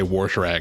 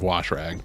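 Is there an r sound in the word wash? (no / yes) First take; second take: yes; no. First: An r sound is added inside wash. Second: Wash is said with no r sound. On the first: The speaker calls it wrong. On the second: The speaker calls it right.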